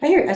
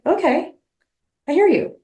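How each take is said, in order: First: Lilting high reassurance; high soothing echo. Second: High, lilting reassurance; sing-song calm to settle a child; mock soothing. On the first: Retold or imitated. Echoing reassurance to her anxious part, high. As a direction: repeat it gently, up high. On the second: Reassuring her scared inner part, high and sing-song. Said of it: "I'm like".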